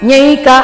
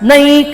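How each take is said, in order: First: A y sound follows the n. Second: The n goes straight into the vowel. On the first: The speaker calls it wrong. "ನ್ಯೈಕ ಹೇಳ್ತಾರೆ, ಯಾವತ್ತೂ ಇಲ್ಲ" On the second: The speaker calls it right. "ಅದೆರಡು ಮಾತ್ರ ಬರಬೇಕು"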